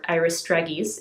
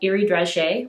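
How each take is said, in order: First: It is said with an American accent. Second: It is said with a non-American, French-style accent.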